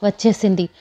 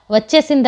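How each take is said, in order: First: Said in the usual way. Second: వచ్చేసింది cried out higher and louder; loud crying. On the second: A narrator's reading. Parvati wails that the demon is back, crying out వచ్చేసింది. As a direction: wail వచ్చేసింది in mild narrated grief. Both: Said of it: "బిగ్గరగా ఏడ్చింది".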